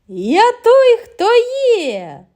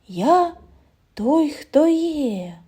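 First: It is said loudly, clearly and cheerfully. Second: It is said very quietly, like rustling. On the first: "голосно, ясно і весело" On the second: "зовсім тихо, немов прошелестіло листя"

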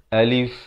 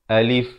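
First: The vowel is kept short. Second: The vowel is kept short.

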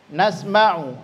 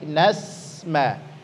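First: The s-sound is short, with little breath. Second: The s-sound flows out with breath. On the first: The speaker calls it wrong. "jangan hanya nasma'u" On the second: The speaker calls it right. "ngalir saja"

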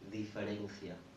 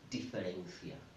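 First: The d is soft, as in Spanish. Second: The d is a hard English d. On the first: The speaker calls it right. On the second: The speaker calls it wrong.

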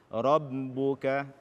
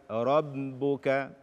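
Both takes have the same delivery.

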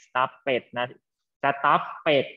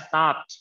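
First: The word is said with two syllables. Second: The word is said with one syllable. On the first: The speaker calls it wrong. "มีสองสี่สองพยางไม่เอานะ" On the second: The speaker calls it right. "ออกเสียงเป็นตัว t"

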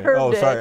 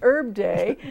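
First: The h at the start is pronounced. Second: The h at the start is silent. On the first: It sounds like the first name. The speaker calls it wrong. "not Herb Day. ... Because I'm not really English" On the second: It refers to the plant. The speaker calls it right. "I'm saying Herb Day"

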